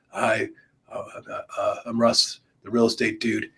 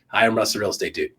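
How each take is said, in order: First: It is said slowly and sleepily, with hesitations. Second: It is said at a normal, even pace.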